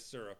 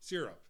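First: The first vowel is not a hard E. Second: The first vowel is a hard E sound. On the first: "But I guess syrup is the other one" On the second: "The hard E"

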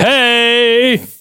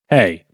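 First: It is said too loudly. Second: It is said at normal loudness.

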